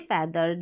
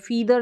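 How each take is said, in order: First: The first vowel is a short 'eh' sound. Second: The first vowel is a long 'ee' sound. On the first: The speaker calls it right. "हम बोलेंगे फैदर" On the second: The speaker calls it wrong. "फीदर नहीं बोलेंगे"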